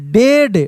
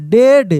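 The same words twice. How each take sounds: First: Said in the usual way. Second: डेड with a short open e, not डिड; correct vowel e. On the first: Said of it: "D E A D". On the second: Shown as a demonstration. Teacher to pupils, correcting डिड to डेड, clear and firm. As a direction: say डेड, like dead. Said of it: "डिड नहीं".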